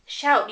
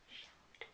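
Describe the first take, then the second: First: Said in the usual way. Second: Breathy whispered word, no voice. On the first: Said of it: "can you say shout and whisper?". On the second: Shown as a demonstration. Mom whispering the word to show her toddler. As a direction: whisper it like a secret. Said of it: "Can you say shout?".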